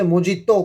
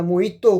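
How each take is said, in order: First: "मोजितो" with a clear j sound; spelling pronunciation. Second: "मोइतो" with no j sound; alternative pronunciation. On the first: Lecturer jokes that pronunciation doesn't matter, "मोजितो" with a j. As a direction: say "मोजितो" as mo-JEE-to. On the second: Lecturer jokes you get the same drink, "मोइतो" without j. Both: Shown as a demonstration. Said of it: "उसका pronunciation क्या है".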